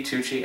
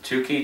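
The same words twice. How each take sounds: First: "Tucci." said as TOO-chee, with a soft CH; CH pronunciation. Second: "Tucci," said as TOO-kee, with a hard K; hard K pronunciation. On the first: Film vlogger trying both pronunciations of an actor's surname, "Tucci." as TOO-chee. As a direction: say "Tucci." with CH as in cheese. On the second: Film vlogger trying both pronunciations of an actor's surname, "Tucci," as TOO-kee. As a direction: say "Tucci," with a K sound in the middle. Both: Shown as a demonstration. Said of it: "I've heard it pronounced both ways".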